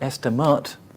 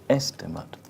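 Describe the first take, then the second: First: The last syllable has a full vowel. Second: The last syllable has a light, reduced vowel. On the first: The speaker calls it wrong. "it's not estimate, because it's not an uh, as in a" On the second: The speaker calls it right. "it's lighter, so it's estimate"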